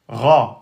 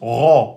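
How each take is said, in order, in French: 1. La syllabe a une voyelle ouverte, assez lourde. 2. La syllabe est plus sombre, avec une qualité emphatique plus marquée. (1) "c'est le Ra" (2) "Ceux qui veulent l'emphatiser un peu plus"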